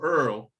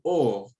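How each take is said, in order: First: The vowel is a dialect 'er' sound. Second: The vowel is a standard 'oy' sound.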